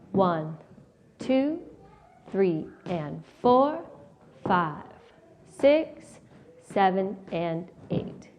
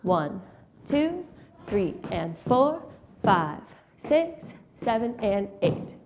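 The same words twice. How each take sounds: First: The counting is slow. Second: The counting is fast.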